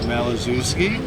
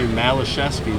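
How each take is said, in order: First: The middle consonant is a 'z' sound. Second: The middle consonant is a 'sh' sound. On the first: This follows how the name looks in spelling. The speaker calls it wrong. "changed the pronunciation to just make it" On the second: This is the original family pronunciation. The speaker calls it right. "The correct pronunciation of his name should be"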